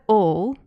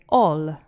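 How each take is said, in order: First: It has an English dark L at the end. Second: It has an Italian front L at the end.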